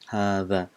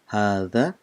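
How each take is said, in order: First: The middle consonant is a th sound. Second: The same.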